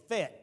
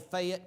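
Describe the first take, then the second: First: The name is said short, like Fet. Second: The name is said as written, like Fay-ette. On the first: The speaker is from there. The speaker calls it right. "it's Fayette, F E T" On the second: The speaker is not from there. The speaker calls it wrong. "do not say Fayette when you are there"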